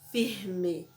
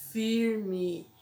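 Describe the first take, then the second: First: "firme" with a breathy H-like R; other region's R. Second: "firme" with a pulled, curled R; local R in firme. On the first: Teacher showing how other places talk, "firme" with aspirated R. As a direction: say "firme" with the R as a throaty H. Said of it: "Os lugares falam firme". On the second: Teacher showing children the local R, "firme" with curled R. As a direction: say "firme" with a drawn retroflex R. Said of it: "Igual eu falo agora". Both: Shown as a demonstration.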